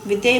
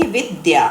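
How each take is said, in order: First: Said in the usual way. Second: विद्या said slowly and clearly, each syllable separated; careful pronunciation. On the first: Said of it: "विद्या pronounce करेंगे". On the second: Shown as a demonstration. Teacher models विद्या slowly and clearly for the children. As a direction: model विद्या, lower and deliberate, for the class. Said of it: "इसको आप pronounce करेंगे तो कैसे करेंगे?".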